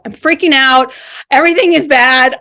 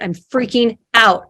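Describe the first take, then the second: First: Louder, panicky burst on freaking. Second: Said in the usual way. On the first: Retold or imitated. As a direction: let the panic break through, louder.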